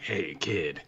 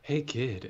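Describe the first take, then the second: First: It is said in a gruff, rough voice. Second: It is said in a plain, smooth voice.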